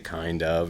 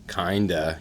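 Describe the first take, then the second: First: Both words are said fully and separately. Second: The two words blend into one reduced form. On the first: The speaker calls it right. "You have to say kind of" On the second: The speaker calls it wrong. "you can't say kind, kinda"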